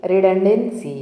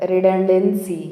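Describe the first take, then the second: No difference in how they are said.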